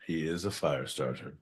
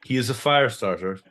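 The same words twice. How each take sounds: First: Much softer, lower echo of the line; hushed repeat, said under the breath; quiet repeat. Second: Said in the usual way. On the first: Shown as a demonstration. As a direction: drop to a hushed aside. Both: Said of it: "repeated line".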